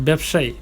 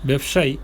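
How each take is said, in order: Both takes have the same delivery.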